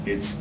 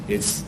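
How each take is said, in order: The two takes are said the same way.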